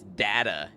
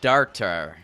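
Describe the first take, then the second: First: The word is said in a plain everyday way. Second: The word is said in a posh, drawn-out way.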